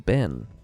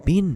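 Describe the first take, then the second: First: The vowel sounds like the e in bed. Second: The vowel sounds like the i in bit. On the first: "his name was Ben" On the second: "They used to call him Bin"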